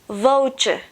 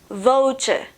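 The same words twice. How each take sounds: Both takes have the same delivery.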